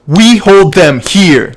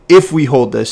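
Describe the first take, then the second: First: Loud, slow, higher-pitched command; direct statement. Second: Said in the usual way. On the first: Shown as a demonstration. Coach shows coxswain how to state the call, direct command. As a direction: drive each word home as a firm order. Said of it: "you make that into statements, you make them clean, very direct". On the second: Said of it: "So again, don't say".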